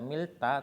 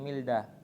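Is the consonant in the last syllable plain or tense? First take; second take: tense; plain. First: The last syllable starts with a tense consonant. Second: The last syllable starts with a plain consonant. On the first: The speaker calls it wrong. "nggak dibaca milta" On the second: The speaker calls it right. "masih tetap dibaca digat"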